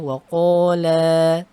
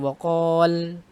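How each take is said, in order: First: The final vowel is held long. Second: The final vowel is short or dropped. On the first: The speaker calls it right. "ketika berhenti kita panjangkan saja" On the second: The speaker calls it wrong. "bukan jadi waqal"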